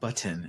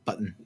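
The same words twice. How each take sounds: First: The middle consonant is a clear T sound. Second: The middle consonant is a glottal stop. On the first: The speaker calls it wrong. "It's not button" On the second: The speaker calls it right. "it's not even a T sound. It's just a glottal stop"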